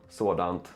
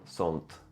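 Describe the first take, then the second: First: The word is said in full, two syllables. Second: The word is reduced to one short syllable.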